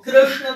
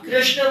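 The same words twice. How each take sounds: First: The sh sound is made with the tongue curled back. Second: The sh sound is made without curling the tongue. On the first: The speaker calls it right. "तब शुद्ध होएगा" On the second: The speaker calls it wrong. "अशुद्ध हो जाएगा"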